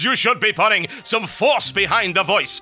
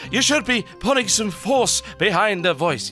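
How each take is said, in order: First: It is shouted with real force. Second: It is only slightly louder, a hushed shout.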